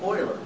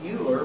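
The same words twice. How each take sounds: First: The name is pronounced unlike its spelling. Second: The name is pronounced the way it is spelled. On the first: The speaker calls it right. "but it's really Euler" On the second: The speaker calls it wrong. "it's spelled like it looks like Euler"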